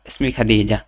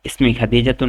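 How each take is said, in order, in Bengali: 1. নামটি সাধারণ স্বরবর্ণে শেষ হয়, 'tun' নেই। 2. নামটি পূর্ণ 'tun' দিয়ে শেষ হয়। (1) "খাদিজা পড়লাম ... সাকিন করতেছি" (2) "খাদিজাতুন পড়লাম না"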